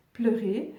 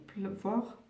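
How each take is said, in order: First: "pleurer" said clearly with a light rise; fixing the slip "pleuvoir", she lands on "pleurer"; corrected word. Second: "pleuvoir" said by mistake, softly, with a rise; a wrong word to her viewers, "pleuvoir" slipping out instead of "pleurer"; slip of the tongue. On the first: After her slip, she tells viewers the right word, "pleurer". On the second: A fumbled "pleuvoir" for "pleurer" as she corrects herself. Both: Real, not acted. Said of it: "Oh mon Dieu".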